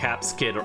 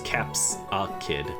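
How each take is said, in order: First: The name is said with two syllables. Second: The name is said with three syllables. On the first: The speaker calls it wrong. "I was saying it wrong" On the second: The speaker calls it right. "It's Capsakid"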